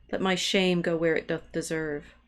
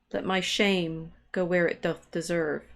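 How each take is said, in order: No difference in how they are said.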